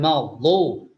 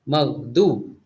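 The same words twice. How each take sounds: First: The middle consonant is a heavy emphatic d. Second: The middle consonant is a plain d sound. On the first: The word keeps its intended meaning. The speaker calls it right. "berbeda dengan" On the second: The word takes on a different meaning. The speaker calls it wrong. "Kalau seandainya kita mengucapkan huruf dhad menjadi dal"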